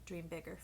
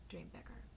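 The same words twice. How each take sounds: First: Said in the usual way. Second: Much lower and softer Dream bigger; deep hushed echo. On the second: Shown as a demonstration. Reader echoing her advice to viewers, deep and hushed.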